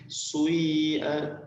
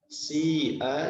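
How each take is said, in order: First: The first vowel blends i with a rounded u. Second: The first vowel is a plain i. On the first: This is the reading of other reciters. "jadi sui'a" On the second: This is the usual reading.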